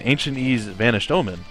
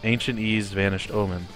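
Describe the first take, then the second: First: The words are projected and clearly enunciated. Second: The words are low, flat and not crisp. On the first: "actually projecting and enunciating" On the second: "low and monotonous"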